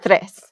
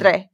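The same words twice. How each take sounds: First: The final s sound is pronounced. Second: The final s sound is dropped.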